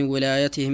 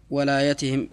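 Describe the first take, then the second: First: ولايتهم said with an i after the waw, "wilayatihim"; kasra on waw. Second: ولايتهم said with an a after the waw, "walayatihim"; uncorrected fatha reading. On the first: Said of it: "بكسر الواو". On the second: Reader's take before teacher's correction. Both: Real, not acted.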